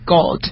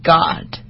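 First: It is said in a British accent. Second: It is said in an American accent.

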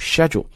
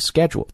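First: It is said in a British accent. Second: It is said in an American accent. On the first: "if you are going to do British accent 这个单词就读 schedule" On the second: "schedule is American English"

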